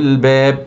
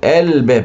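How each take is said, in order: First: It joins the previous word without a glottal stop. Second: It begins with a glottal stop and open vowel. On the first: The word is joined to the word before it. "أنا أوصلها ببعضها هتبقى عليهم الباب" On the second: The word starts a new utterance. "لو أنا هبدأ من كلمة اللي بعد عليهم أقول الباب، بدأت بهمزة مفتوحة"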